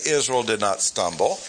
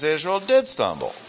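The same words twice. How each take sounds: First: Said in the usual way. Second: DID punched high before "stumble"; stress on DID. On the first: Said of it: "He did not say". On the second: Shown as a demonstration. Teacher correcting a misreading of Paul, strong stress on DID. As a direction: lean hard on the word DID, then fall away. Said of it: "He says Israel did stumble".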